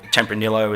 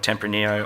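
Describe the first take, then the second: First: It is pronounced the Australian English way. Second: It is pronounced the Spanish way.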